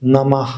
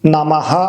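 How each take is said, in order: First: It ends with a soft, airy breath. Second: It ends with a full, clear 'ha' sound. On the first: The speaker calls it right. "ഹ കാറ്റിങ്ങനെ പോകുന്ന പോലെ നമ ഇങ്ങനെയാണ് പറയുന്നത്" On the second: The speaker calls it wrong. "നമഃ അല്ല"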